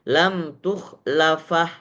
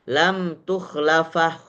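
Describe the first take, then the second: First: The final vowel is silent after the consonant. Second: The same.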